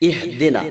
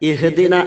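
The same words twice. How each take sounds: The two takes are said the same way.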